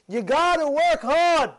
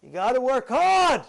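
First: Slow, stressed second take; You gotta work hard, slower and weightier; emphatic repeat. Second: Said in the usual way. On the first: Shown as a demonstration. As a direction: drive home work, slowly.

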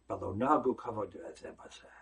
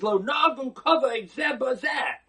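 First: Quiet, low restatement. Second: Proclaimed quote. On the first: Rabbi quoting the Talmud again. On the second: Rabbi quoting the Talmud. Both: Real, not acted.

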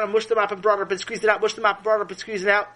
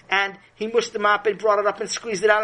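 First: Speeding up. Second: Said in the usual way. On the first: A narrator's reading. Narrator to kids, mopping sped up, rushed. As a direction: rattle the repeats off fast.

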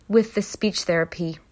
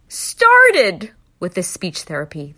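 First: Said in the usual way. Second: "started with the speech therapy" louder and slowed for weight; louder, slower emphasis on "started"; emphatic. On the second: Shown as a demonstration. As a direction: lean hard on "started". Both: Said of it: "They never were even able to start".

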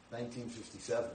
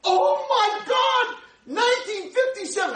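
First: Said in the usual way. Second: Much higher and louder, slow amazed cry; excited exclamation. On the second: Retold or imitated. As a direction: shriek it out like amazing news. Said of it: "this guy's all excited".

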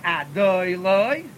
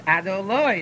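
First: Adoloi as a-DOOY-loy, middle syllable drawn out; slow, exaggerated a-DOY-loy, accent too early; wrong middle stress. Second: Adoloi as a-do-LOY, stress on the last syllable; a-do-LOY, short start and accented ending; correct final stress. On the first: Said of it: "It's not Adoloi". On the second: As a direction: land the accent on the LOI of Adoloi. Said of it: "it's on the Nun". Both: Shown as a demonstration.

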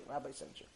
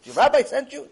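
First: Hushed, nearly voiceless repeat; acted stunned echo. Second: High, loud incredulous question; acted astonishment. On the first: Man taking in the rabbi's referral, hushed. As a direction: let it drop to a near whisper. Same words repeated under breath. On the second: Man questioning the stranger about the rabbi, incredulous. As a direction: ask it in loud disbelief.

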